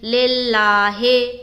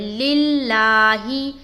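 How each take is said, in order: First: The vowels sound like 'e'. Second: The vowels sound like 'i'. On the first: The speaker calls it wrong. "मजहूल पढ़ते हैं वो पढ़ेंगे लिल्लाहे" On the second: The speaker calls it right. "लेल नहीं पढ़ना, लिल पढ़ना है"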